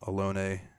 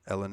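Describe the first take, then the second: First: The name sounds like the word 'alone'. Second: The name sounds like the name 'Ellen'. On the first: "I call her Alone" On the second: "we'll say Ellen, because that just sounds cooler"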